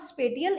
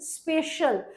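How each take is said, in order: First: The middle consonant is a 't' sound. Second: The middle consonant is an 'sh' sound. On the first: The speaker calls it wrong. "It is not स्पेटियल" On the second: The speaker calls it right. "It is स्पेशल"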